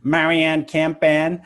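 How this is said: The name is pronounced with American English sounds. "say it in the American way"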